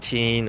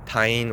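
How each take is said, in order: First: The vowel sounds like the one in bean. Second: The vowel sounds like the one in line. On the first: "a lot of people try to pronounce it like teen" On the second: "or tine"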